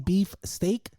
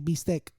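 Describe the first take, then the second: First: It is said with an English accent. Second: It is said with a Spanish accent. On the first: "Mexicans can't say beef steak" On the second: "so they say beefsteak"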